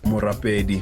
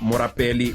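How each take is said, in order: First: The consonant before the final vowel is a D. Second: The consonant before the final vowel is an L. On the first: The speaker calls it right. "it's a D in Sesotho" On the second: The speaker calls it wrong. "I read that L like a like a like an L"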